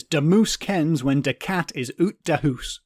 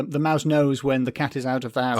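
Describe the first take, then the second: First: Slow "moose", "oot", "hoose" with long oo vowels; Shetland dialect. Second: Said in the usual way. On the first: Shown as a demonstration. Quoting a Shetland saying, "de moose" slow in dialect. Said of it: "A saying from Shetland is". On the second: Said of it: "I'm not doing the accent".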